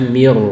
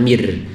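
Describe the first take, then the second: First: The r sound is thick and heavy. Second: The r sound is thin and light. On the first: The speaker calls it right. "Ini tebal roknya" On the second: The speaker calls it wrong. "jangan mir"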